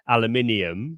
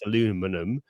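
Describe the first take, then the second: First: It is said with a British pronunciation. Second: It is said with an American pronunciation. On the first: "you've got the classic" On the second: "in the States, it would it would be pronounced"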